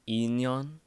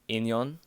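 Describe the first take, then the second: First: The word starts with a held 'e' sound. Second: The word starts with a short 'in' sound. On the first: This is a mispronunciation of the word. The speaker calls it wrong. "she pronounces it as inyon ... hold up the e" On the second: This is the correct word for destiny. The speaker calls it right. "which is supposed to be inyon"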